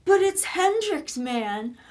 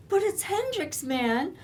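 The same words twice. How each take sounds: First: Put-on excited boyfriend. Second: Mock the boyfriend's starry excuse; whining excuse. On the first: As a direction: mimic a starstruck young guy raving. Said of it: "And you go". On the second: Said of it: "And you're just going".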